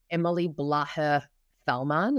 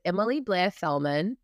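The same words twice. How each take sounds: First: "Blaher" said as two syllables, Blay-her; "Emily Blaher Fellman" with "Blaher" stretched into Blay-her; common mispronunciation. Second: "Blair" said as one syllable, like the name Blair; "Emily Blair Fellman" with a single-syllable "Blair"; correct pronunciation. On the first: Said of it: "the common p-, way people pronounce it". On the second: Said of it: "just letting you know". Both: Shown as a demonstration.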